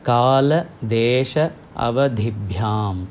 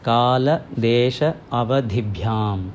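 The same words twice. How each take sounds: Both takes have the same delivery.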